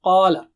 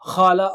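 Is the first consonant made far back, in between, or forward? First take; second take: in between; far back. First: The first consonant is a thick sound in between. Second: The first consonant is a rasping sound far back. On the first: The speaker calls it right. "No, qala" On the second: The speaker calls it wrong. "don't say it khala"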